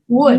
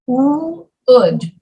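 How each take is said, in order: First: The word is said smoothly as one blended sound. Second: The word is split slowly into two separate sounds. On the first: "You just blend them together" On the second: "do it very slowly"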